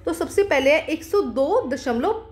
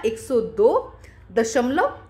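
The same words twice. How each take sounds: First: Said in the usual way. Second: एक सौ दो दशमलव said slowly, word by word; slow dictation. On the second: Shown as a demonstration. Teacher slowly dictating the number to pupils. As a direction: spell out एक सौ दो दशमलव slowly for the class. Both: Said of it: "तो यहाँ पे क्या आ जाएगा".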